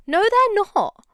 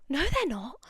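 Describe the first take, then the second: First: Loud, high, indignant No; emphatic shout. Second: Said in the usual way. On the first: Real, not acted. Vlogger snapping back at moth defenders, loud indignant shout. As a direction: shout it down, no arguing.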